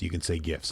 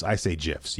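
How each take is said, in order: First: "gifs" said with a hard G, as in gift; hard G opening on "gifs". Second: "gifs" said with a J sound, like "jifs"; soft G in "gifs", as in gem. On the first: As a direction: say "gifs" starting like "give". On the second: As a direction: say "gifs" starting like "jiffy". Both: Shown as a demonstration.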